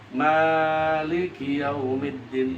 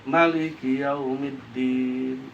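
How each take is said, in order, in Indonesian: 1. Vokal pertama dipanjangkan. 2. Vokal pertama dibaca pendek. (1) "Kan mimnya panjang tuh" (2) "Itu bisa dibaca pendek"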